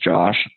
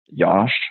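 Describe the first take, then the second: First: The name starts with a J sound. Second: The name starts with a Y sound. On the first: This is the usual form of the name. "my name's Josh" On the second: This is an alternative form used as a nickname. "the way I used to pronounce it was like Yosh"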